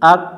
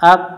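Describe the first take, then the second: No difference in how they are said.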